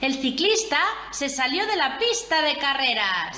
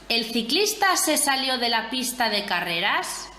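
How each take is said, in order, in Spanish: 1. Se dice con una entonación exclamativa y sorprendida. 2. Se dice con una entonación interrogativa.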